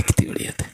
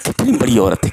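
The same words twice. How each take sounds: First: Whispered in wonder; soft echoing whisper of awe; awed whisper. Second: Said in the usual way. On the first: Real, not acted. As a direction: breathe it out reverently.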